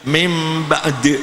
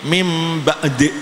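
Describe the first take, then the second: The two takes are said the same way.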